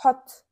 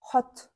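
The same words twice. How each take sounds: First: Hot said loud and firm as a model; loud model word. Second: Said in the usual way. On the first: Shown as a demonstration. Teacher modelling a new word for learners, loud. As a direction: call out Hot clearly so the class repeats it. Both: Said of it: "Кайталайбыз".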